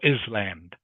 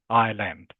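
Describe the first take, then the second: First: The s is pronounced in the word. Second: The s is silent in the word. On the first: The speaker calls it wrong. "not not Iceland or Island" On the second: The speaker calls it right. "it's pronounced that the S is silent"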